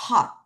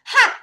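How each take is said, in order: First: "hot" opened with a 허 sound; correct "hot". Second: "hot" cut short with a flat vowel, like "hat"; the mistake to avoid, abrupt "hot" as "hat"; wrong "hot" example. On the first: Teacher correcting students, "hot" built from 허. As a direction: model "hot" from the breathed h, separate final t. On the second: Teacher warning students off a mistake, "hot" as short "hat". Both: Shown as a demonstration. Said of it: "hot 하지 마".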